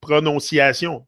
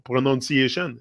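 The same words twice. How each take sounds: First: Pronunciation said the French way, pro-no-see-ah-SYON. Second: Said in the usual way. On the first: Shown as a demonstration. Explaining accents, he says Pronunciation in French. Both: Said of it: "the pronunciation".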